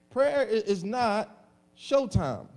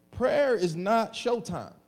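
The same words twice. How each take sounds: First: "Prayer i-, is not showtime" drawn out, "Prayer" hit hard; slow emphatic repeat. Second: "prayer is not showtime" said slowly, weight on "prayer"; slow emphatic statement. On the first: Pastor repeating his point to the congregation, slow and heavy. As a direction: hammer the point home slowly. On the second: Pastor stressing to his church, slow weighted words. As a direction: lean on "prayer" and drag it out. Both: Shown as a demonstration. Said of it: "Jesus on how to pray".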